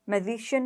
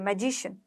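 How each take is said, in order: First: The consonant after 'ma' is not a 'j'. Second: The consonant after 'ma' is a 'j'. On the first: The speaker calls it wrong. "मैजिशियन नहीं" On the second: The speaker calls it right. "ज बोलोगे यहाँ पर"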